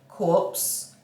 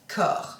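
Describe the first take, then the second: First: The word ends with a 'ps' sound. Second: The word ends without a 'ps' sound. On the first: The speaker calls it wrong. "not corpse" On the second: The speaker calls it right. "Let's say it right"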